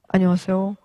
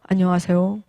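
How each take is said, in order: First: It is said low in pitch and sad. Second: It is said low in pitch and sad.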